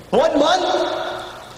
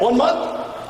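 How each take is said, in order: First: Higher, stretched disbelieving question; can't believe it's that short; incredulous. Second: Said in the usual way. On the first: Real, not acted. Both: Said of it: "You kidding".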